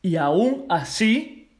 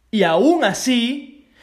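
First: Said in the usual way. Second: "aún así" slow, louder and higher; drawn-out stressed "aún así"; emphatic repeat. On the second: Real, not acted. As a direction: lean hard on "aún". Repeated with more force.

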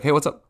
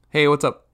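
First: "Hey, what's up?" slurred fast into a single word; run together as one word. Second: Said in the usual way. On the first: Shown as a demonstration. Passing acquaintance, greeting blurred into one word. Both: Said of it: "it's almost like one word".

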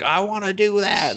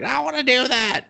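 First: Put-on higher, eager girl voice; mock eager girl. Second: Put-on much higher, whiny childlike plea; whiny insistent girl. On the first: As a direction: beg like a kid. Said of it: "the idiot is just like". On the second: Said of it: "She's just like".

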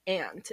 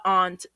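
First: Aunt said like "ant"; short nasal a in aunt; nasal pronunciation. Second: Aunt said "ahnt"; open, formal ah vowel in aunt; formal pronunciation. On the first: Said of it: "it's very, um, nasally". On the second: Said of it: "I feel too formal saying aunt". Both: Shown as a demonstration.

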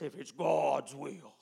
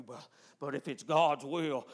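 First: Slow, drawn-out doubtful "If it's God's will."; doubtful hedging. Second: Said in the usual way. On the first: Retold or imitated. Preacher mocking church prayer, slow doubtful hedge. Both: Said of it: "and they say it like this".

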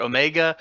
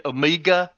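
First: Said in the usual way. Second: "Omega" said the Australian way, oh-MEE-ga; Australian accent. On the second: Retold or imitated. Fan showing how the show says it, Australian accent. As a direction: give "Omega" an Australian long ee in the middle. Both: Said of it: "they say it in, in Australian".

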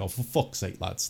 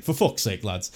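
First: Low, quiet fed-up mutter of "for fuck's sake"; muttered exasperation. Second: Fed-up "for fuck's sake" at normal volume with a falling end; exasperated outburst. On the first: Podcaster retelling his reaction to the signings, quietly exasperated. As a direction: grumble it under your breath. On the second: Podcaster retelling his reaction to the signings, openly exasperated. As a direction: let the frustration out plainly. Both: Retold or imitated. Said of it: "the tipping point where it was just like".

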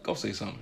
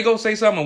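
First: Soft and low through clenched teeth; hushed threatening dare; quiet menace. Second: Said in the usual way. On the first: Shown as a demonstration. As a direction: mutter the dare under your breath. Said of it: "or was your look like". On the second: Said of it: "Did you say".

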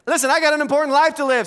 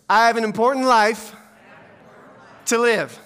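First: Fast, high and loud, in one run; urgent restatement. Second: Loud line in separate chunks, with a long pause; feed it out piece by piece to be repeated; call-and-response prompt. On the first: Real, not acted. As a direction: drive it home in one quick burst. Preacher urgently restates the repeated line. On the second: Shown as a demonstration. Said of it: "ask you to repeat after me".

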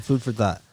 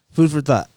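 First: Said in the usual way. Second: Raspy right after coughing; throat still rough from the cough; smoker's cough. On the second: Real, not acted. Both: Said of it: "Smoker's cough".

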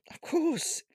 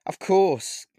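First: Panicked, much higher squeak; nervous squeak. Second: Nervous. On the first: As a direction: voice jumps up in fear. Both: Acted. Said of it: "I said nervously".

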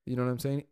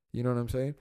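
No difference in how they are said.

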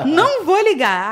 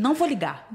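First: Laughing repeat. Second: Said in the usual way. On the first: Retold or imitated. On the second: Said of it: "Eu falei".

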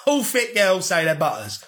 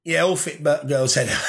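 First: Said through a laugh; chuckling retake. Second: Said in the usual way. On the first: Real, not acted. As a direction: laugh it out while repeating the line.

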